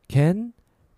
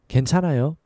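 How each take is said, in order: First: It is said slowly. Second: It is said more quickly.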